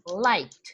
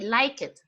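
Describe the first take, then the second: First: The ending is a single T sound. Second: The ending is said as an extra syllable. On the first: The speaker calls it right. "We say liked with the T" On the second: The speaker calls it wrong. "We don't say like it, no"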